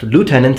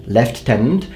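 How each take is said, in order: First: It is said with the American pronunciation. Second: It is said with the British pronunciation. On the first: "in America it's pronounced lieutenant" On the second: "your pronunciation lieutenant makes no sense if you look at the actual word"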